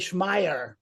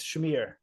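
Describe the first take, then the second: First: The name is said the way it is spelled. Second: The name is said to sound like 'smear'. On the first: This is how many Americans read the name. The speaker calls it wrong. "many Americans say Schmeier, you know, because yeah, it, it reads like this" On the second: This is the name's real pronunciation. The speaker calls it right. "but it's Schmier. Yeah, it's basically like you know, you know the smear test"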